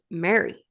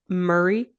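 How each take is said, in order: First: The name is said like 'Mary'. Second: The name is said with a 'hurry'-like vowel. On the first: This is how locals would say it. The speaker calls it right. "people from back home would be like Mary" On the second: This is how the characters say it. The speaker calls it wrong. "did you notice how everyone says Murray?"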